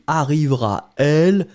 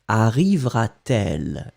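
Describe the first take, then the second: First: The words meet directly with no linking t. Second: A t sound links the two words together. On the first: The speaker calls it wrong. "if you don't put it, it should be arrivera elle and it's not beautiful at all" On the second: The speaker calls it right. "we put this T just to make it flow"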